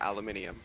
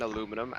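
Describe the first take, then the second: First: The word is said with five syllables. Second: The word is said with four syllables. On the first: This is the British way of saying it. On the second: This is the American way of saying it.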